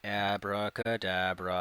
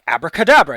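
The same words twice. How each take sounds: First: It is said slowly and sluggishly. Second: It is said quickly and energetically.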